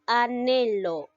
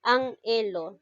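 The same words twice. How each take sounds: First: Anhelo as a-nhe-lo, the N starting the second syllable; correct syllables. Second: Anhelo split wrongly as an-he-lo; wrong syllables. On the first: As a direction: say anhelo the right way, a-ne-lo. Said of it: "sino llega a ser anhelo". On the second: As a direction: say Anhelo with the N closing the first syllable. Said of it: "no se pronuncia de esa manera". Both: Shown as a demonstration.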